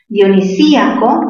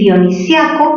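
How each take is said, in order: First: The stressed i is a separate syllable. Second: The i joins the a in one syllable. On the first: "tildación disol, disolvente" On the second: "como hay un diptongo, sería una palabra grave"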